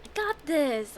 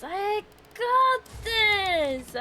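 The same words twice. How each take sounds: First: Said in the usual way. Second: Slow, higher, stretched GOT THIS; drawn-out pep talk. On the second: Real, not acted. Player steadying themself after dying, slow self-encouragement. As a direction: psych yourself up, stretching each word.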